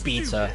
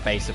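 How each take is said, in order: First: The word is said with a British pronunciation. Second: The word is said with an American pronunciation. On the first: The speaker calls it wrong. "the British is beta" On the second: The speaker calls it right. "I'll just say beta, please"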